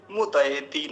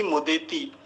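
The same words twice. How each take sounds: First: मुदयति said "mu-dai-ti"; full ai vowel. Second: मुदेति said "mu-de-ti"; wrong single e. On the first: Teacher correcting the vowel for students, मुदयति with full ai. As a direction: open the middle of मुदयति into a double "ai". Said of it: "इसको ठीक से बोलेंगे". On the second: Teacher showing what not to say, मुदेति with single e. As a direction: flatten the middle of मुदेति to a simple "e". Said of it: "ना कि मुदेति". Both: Shown as a demonstration.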